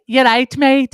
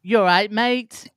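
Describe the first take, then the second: First: High, loud English greeting; chirpy English accent. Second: Slow, high mock English greeting; English accent. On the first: Retold or imitated. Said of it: "I'd be like". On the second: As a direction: ham up a northern English accent. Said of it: "I'd be like, eleven years old".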